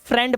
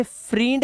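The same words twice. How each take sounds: First: Said in the usual way. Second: फ्रींड with "ee" where "e" belongs; wrong long EE. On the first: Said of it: "हम इसे फ्रेंड पढ़ते हैं". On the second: Shown as a demonstration. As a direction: misread फ्रींड as "freend". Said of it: "हम इसे फ्रींड नहीं पढ़ते". (फ्रींड में गलत लंबी ई)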